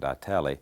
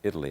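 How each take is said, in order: First: The name is said with the local pronunciation. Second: The name is said like the country Italy. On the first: This is how the residents say the name. "I think the residents pronounce it Itali" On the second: This is how an outsider says the name. "I pronounced it Italy"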